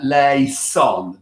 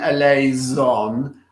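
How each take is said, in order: First: The S is a crisp, real S sound. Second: The S is a softer, Italianate S sound. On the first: The speaker calls it right. "using the S sound as a real S when it's Greek" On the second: The speaker calls it wrong. "the more Italianate S sound that we tend to sing for Latin"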